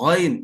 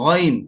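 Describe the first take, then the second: Both takes have the same delivery.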